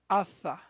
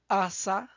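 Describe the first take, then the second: First: The middle consonant is a lisped th sound. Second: The middle consonant is a hissing s sound. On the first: "in other accent, it could sound tha" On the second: "which sounds s or th"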